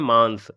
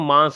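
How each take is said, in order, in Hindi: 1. s से पहले एक अलग n ध्वनि आती है। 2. स्वर अनुनासिक है, इसमें अलग से कोई n नहीं है। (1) "शुद्ध शब्द होता है मांस ... ना का उच्चारण हो रहा है" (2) "अगर उच्चारण नीचे वाले का करेंगे तो मांस होगा"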